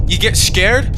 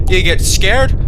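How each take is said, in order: First: Light Scottish accent, scared rolled; a quick Scottish take on You get scared?. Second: Light British accent, get said as geht; a quick British take on You get scared?. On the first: Player shows the accent he slips into when scared, light Scottish. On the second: Player shows his other scared accent, light British. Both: Shown as a demonstration.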